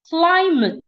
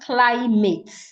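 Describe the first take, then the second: First: The second syllable has a weak 'uh' vowel. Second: The second syllable has a full 'ah' vowel. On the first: The speaker calls it right. "instead of sounding ah, will sound uh" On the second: The speaker calls it wrong. "not climate"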